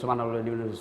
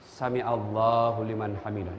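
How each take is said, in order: First: It is said very fast and rushed. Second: It is said slowly and calmly.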